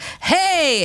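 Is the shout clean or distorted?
clean. The shout is clean with no scratchy noise. The speaker calls it wrong. "that's really clean. There's not enough distortion"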